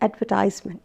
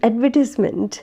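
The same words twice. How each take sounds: First: It is said with an American pronunciation. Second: It is said with a British pronunciation. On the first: "whereas in American English it is advertisement" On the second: "It is advertisement um, in British English"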